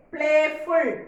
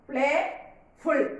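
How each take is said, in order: First: Said in the usual way. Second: "Playful" as two separate beats, Play, ful; syllable by syllable. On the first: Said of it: "How many syllables are there?". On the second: Shown as a demonstration. Teacher showing two syllables, Playful split in two. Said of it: "So there are two syllables".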